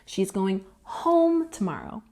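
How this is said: The stress falls on the word home. It corrects where the person is going. "this sentence is putting the emphasis on home"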